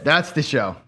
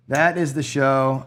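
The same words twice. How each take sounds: First: Said in the usual way. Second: "That is the show" said slower, each word given weight, "That" hit hardest; slow emphatic. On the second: Real, not acted. To viewers after a losing craps roll, slow emphatic "That is the show". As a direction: spell out "That is the show" word by word, leaning on "That".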